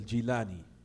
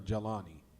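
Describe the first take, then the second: First: The first syllable has an 'i' vowel. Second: The first syllable has an 'a' vowel. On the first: He came from the town called Jilan. The speaker calls it right. "The correct way to pronounce it is Al Jilani" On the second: This is how people in America say it. The speaker calls it wrong. "They say here in America"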